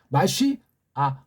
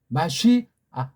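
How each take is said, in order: No difference in how they are said.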